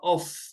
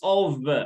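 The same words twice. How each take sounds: First: The word ends with an F sound. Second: The word ends with a V sound. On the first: The speaker calls it wrong. "not of" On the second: The speaker calls it right. "it's pronounced of"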